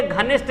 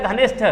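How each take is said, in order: First: घनिष्ठ ending in unaspirated T; wrong form. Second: घनिष्ठ ending in aspirated TH; correct form. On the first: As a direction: cite घनिष्ठ as "ghanisht". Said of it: "ये घनिष्ठ नहीं होता है". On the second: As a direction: finish घनिष्ठ on a breathed THa. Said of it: "घनिष्ठ दोस्त होता है". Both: Shown as a demonstration.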